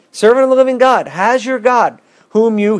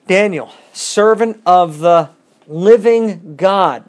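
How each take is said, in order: First: High, loud, desperate cry into the den; anguished call. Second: Slow, pleading call to Daniel, a touch louder; anguished call. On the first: King calling to Daniel in the den, anguished cry. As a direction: cry out as if fearing the worst. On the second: King calling to Daniel at the den, mildly anguished. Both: A narrator's reading. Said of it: "he called out to Daniel in an anguished voice".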